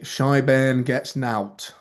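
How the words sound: It is spoken in an English accent.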